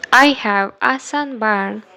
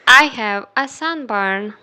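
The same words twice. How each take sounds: The two takes are said the same way.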